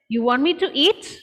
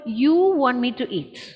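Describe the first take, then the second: First: It is said as a question. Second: It is said as a plain statement. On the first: The speaker is asking whether the listener wants this. "My second sentence is, ... are you asking me to eat?" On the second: The speaker is eating because the listener wants it. "my first sentence was"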